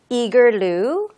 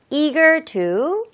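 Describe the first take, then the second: First: The t sound is softened into a light flap. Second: The t sound is clearly and crisply pronounced. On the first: "조금 부드럽게도 발음할 수가 있겠습니다" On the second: "T 발음을 조금 살려서"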